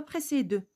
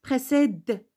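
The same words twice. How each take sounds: First: Précède ending in a full 'duh'; wrongly sounded final E. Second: Précède ending on the consonant d; mute final E. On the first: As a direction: voice the last e of précède as 'euh'. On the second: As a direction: stop Précède at a released d, no 'euh'. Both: Shown as a demonstration. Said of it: "On ne dit pas précède".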